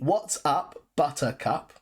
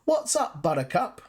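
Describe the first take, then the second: First: The T sounds are clearly pronounced, said slowly. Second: The T sounds are dropped, said quickly. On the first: "you can see what's up, buttercup" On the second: "when we use it very naturally and quickly, we kind of drop the T sounds in the middle"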